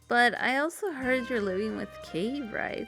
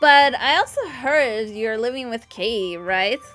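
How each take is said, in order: First: The line is spoken in a quiet whisper. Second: The line is spoken loudly, not whispered. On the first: The remark is meant to stay private. The speaker calls it wrong. "I thought she would have actually whispered that" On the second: The would-be secret carries across the room. The speaker calls it right. "apparently that's how she said it instead of a whisper"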